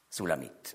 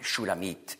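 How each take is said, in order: First: The name begins with a plain s sound. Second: The name begins with an sh sound. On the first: This is the usual German form of the name. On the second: This is the Hebrew form of the name.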